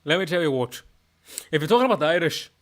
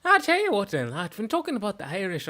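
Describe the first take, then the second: First: Put-on chatty Scottish accent; conversational Scots lilt. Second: Lilting, high-rising Irish accent; Irish lilt with swooping pitch. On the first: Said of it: "my Scottish accent is". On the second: Shown as a demonstration. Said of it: "main difference between the Irish".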